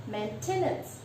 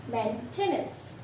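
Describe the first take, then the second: The two takes are said the same way.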